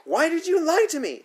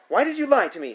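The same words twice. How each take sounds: First: Much higher, louder outraged question; shrill furious repeat. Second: High, loud accusing question; angry demand. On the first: Sitter repeating her demand to the boy, furious high. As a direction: push it even higher, livid. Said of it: "she asks again". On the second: Sitter enraged by the boy's confession, angry demand. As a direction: demand an answer, outraged. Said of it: "she demands". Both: A narrator's reading.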